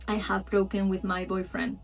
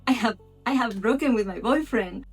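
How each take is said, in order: First: It is said flat and robotic, without emotion. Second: It is said with emotion and feeling.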